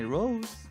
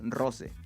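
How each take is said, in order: First: The name is pronounced with English sounds. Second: The name is pronounced with Spanish sounds. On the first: This is how others say the name. The speaker calls it wrong. "those street artists and you know hipsters call me Rose" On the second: This is how the owner says the name. The speaker calls it right. "how I pronounce it is in Spanish"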